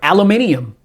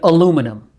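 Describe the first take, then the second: First: The word is said with five syllables. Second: The word is said with four syllables. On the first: This is how some other people say it. "Some people are aluminium" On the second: This is how the speaker grew up saying it. "I came up saying aluminum. That's how we pronounce aluminum"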